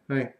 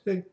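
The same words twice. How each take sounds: First: It is said in the speaker's normal voice. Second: It is said in an old man's voice.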